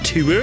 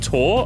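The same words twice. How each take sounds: First: It is said with an American-sounding pronunciation. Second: It is said with a British-sounding pronunciation. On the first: The speaker calls it wrong. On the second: The speaker calls it right.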